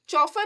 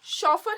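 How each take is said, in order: First: The word begins with a 'ch' sound. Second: The word begins with an 'sh' sound. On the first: The speaker calls it wrong. "चौफर नहीं बोलते हमें" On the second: The speaker calls it right. "शॉफर हम उसको pronounce करते हैं"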